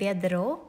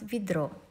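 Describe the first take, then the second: First: The first vowel is a full, clear e. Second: The first vowel is reduced, close to i. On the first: "it's written ведро" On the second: "but you pronounce ведро"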